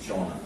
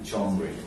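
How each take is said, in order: First: The word ends in a vowel, no 'r' heard. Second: The word ends with an audible 'reh' sound. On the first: "জনরে কিন্তু জনরে কি জনা" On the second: "দেখো জি E N আর ই"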